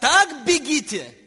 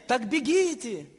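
First: It is said firmly, as a command. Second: It is said softly, as a mild suggestion. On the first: Running to win is required, not optional. The speaker calls it right. "Это приказ" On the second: Running is merely proposed as an option. The speaker calls it wrong. "Это не предложение"

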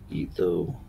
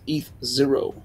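First: The final character is read as 'oh'. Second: The final character is read as 'zero'. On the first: The speaker calls it wrong. "It's not Etho" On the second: The speaker calls it right. "It's ETH zero"

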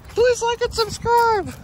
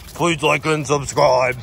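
First: It is said in a Velma impression. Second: It is said in a Scooby impression.

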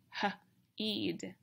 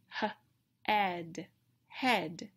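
First: The vowel is a long E sound, like in 'see'. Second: The vowel is a short E sound, like in 'bed'. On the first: This reading does not make a real word. The speaker calls it wrong. "It's going to have the long E sound" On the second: This reading makes the word for a body part. The speaker calls it right. "So I try again"

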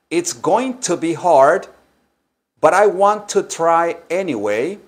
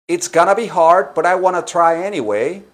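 First: Going to and want to are said in full. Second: Going to and want to are reduced and linked. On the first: This is an alternative, fuller pronunciation. "lo pueden pronunciar también así" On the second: This is the normal spoken American pronunciation. "Esa es la pronunciación hablada normal"

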